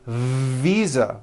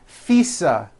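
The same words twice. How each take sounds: First: The first consonant is a voiced V sound. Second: The first consonant is a voiceless F sound. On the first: The speaker calls it right. "with a voiced V" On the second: The speaker calls it wrong. "I said visa with an unvoiced F"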